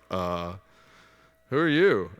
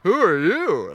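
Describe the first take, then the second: First: It sounds hesitant and confused. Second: It sounds startled and loud.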